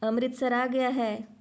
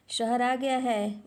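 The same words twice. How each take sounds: First: ज़ोर से, धीमे धीमे पुकारता हुआ; शहर का नाम ज़ोर से बताओ; ऊंची आवाज़ में पुकार. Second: ज़ोर से, धीमे धीमे पुकारता हुआ; खिड़की से झांककर सबको ज़ोर से बताओ; ऊंची आवाज़ में पुकार. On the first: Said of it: "उसने फिर से कहा". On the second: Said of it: "फिर ऊंची आवाज़ में चिल्लाया". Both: A narrator's reading. (बाबू डिब्बे वालों को पुकारता है, ज़ोर से और धीमे)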